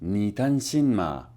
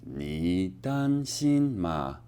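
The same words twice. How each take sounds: First: 你担心吗 said slowly, a bit lower; slow Mandarin drill. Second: 你担心吗 stretched right out and lower; very slow Mandarin drill. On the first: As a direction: practise 你担心吗 tone by tone. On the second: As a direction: draw out 你担心吗 syllable by syllable. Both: Shown as a demonstration.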